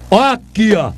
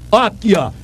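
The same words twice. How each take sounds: The two takes are said the same way.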